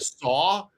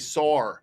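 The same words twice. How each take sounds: First: The word ends without an R sound. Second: The word ends with an added R sound. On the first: "instead of "saw,"" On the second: "they put an R on the end"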